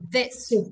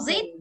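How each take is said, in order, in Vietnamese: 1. Từ này bắt đầu bằng âm th hữu thanh. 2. Từ này bắt đầu bằng âm z. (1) "Đặt thò lưỡi ngoài này" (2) "Không đọc zit"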